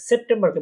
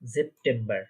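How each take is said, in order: First: It begins with an S sound. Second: It begins with a Z sound. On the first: "সেপ্টেম্বরকে বলবো আমরা" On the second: "বলবো আমরা জেপ্টেম্বর"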